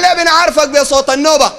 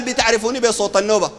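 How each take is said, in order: First: Higher, louder acted questioning; raised voice of puzzled followers; followers' question. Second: Contained, matter-of-fact quoted reply; understated voice of the sheikh replying; sheikh's answer. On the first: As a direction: call the question up to the sheikh. Acts followers questioning their sheikh. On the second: Acted. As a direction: answer the followers evenly. Acts sheikh's answer to followers.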